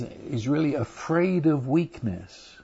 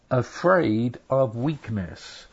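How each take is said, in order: First: Said in the usual way. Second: "Afraid of weakness" slowed, each word weighted; slow emphasis. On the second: Shown as a demonstration. Preacher repeating the point to congregation, slow stressed emphasis. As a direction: lean on "Afraid" and draw the phrase out slowly. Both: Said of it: "Yes, you heard me".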